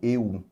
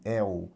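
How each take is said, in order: First: The diphthong starts with a closed vowel. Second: The diphthong starts with an open vowel. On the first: The speaker calls it wrong. "senão nós teríamos" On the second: The speaker calls it right. "E a pronúncia é"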